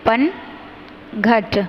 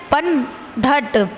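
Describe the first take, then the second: First: पनघट said very slowly and softly with घ; correct pronunciation. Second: पनघट said very slowly with ध sound; wrong pronunciation. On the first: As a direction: stretch पनघट with a breathy घ. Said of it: "तो यहाँ पे होगा". (पनघट का सही उच्चारण, धीरे) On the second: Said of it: "धट नहीं घट होता है". (पनघट का गलत उच्चारण, धीरे) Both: Shown as a demonstration.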